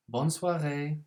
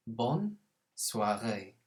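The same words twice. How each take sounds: First: «Bonne soirée» said at normal speed, higher and louder; a natural, lively «Bonne soirée»; brisk model. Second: «Bonne soirée» said very slowly and clearly; drawn out so learners can copy «Bonne soirée»; slow model. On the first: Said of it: "model phrase at normal pace". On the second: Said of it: "model phrase said slowly". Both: Shown as a demonstration.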